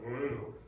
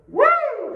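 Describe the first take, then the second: First: Low flat woo. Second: High, loud falsetto whoop; high falsetto woo. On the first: Retold or imitated. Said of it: "Some of you still went". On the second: Shown as a demonstration. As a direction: throw it way up. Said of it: "go way up high and go".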